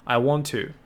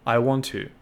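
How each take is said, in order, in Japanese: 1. 2つのtの音は、1つにくっつきます。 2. 2つのtの音は、1つにくっつきます。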